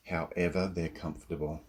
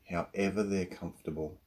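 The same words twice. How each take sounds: The two takes are said the same way.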